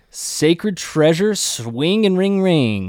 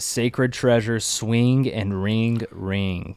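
First: It is said with more fun and energy. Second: It is read out flatly and plainly.

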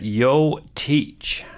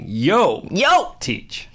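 First: The name is said plainly, without attitude. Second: The name is said with sassy attitude. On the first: The speaker calls it wrong. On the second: The speaker calls it right.

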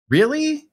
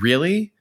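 First: The word is said at a middle pitch. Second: The word is said at a lower pitch. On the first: It sounds more insistent. "And then when you go up another pitch" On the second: It questions the absurd situation. "That sounds like a question in itself"

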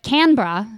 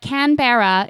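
First: The R sound is softened. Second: The R sound is fully pronounced. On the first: This is an accepted alternative for stronger accents. "some softening the R" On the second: This is the formal pronunciation. "the correct formal pronunciation"

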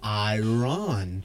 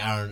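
First: The word is sounded out slowly and carefully. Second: The word is said quickly in a casual way. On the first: "if I say it, like, sound it out" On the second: "I feel like when I say iron, it sounds weird"

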